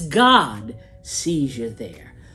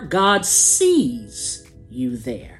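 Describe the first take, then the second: First: The stress falls on the word God. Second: The stress falls on the word sees.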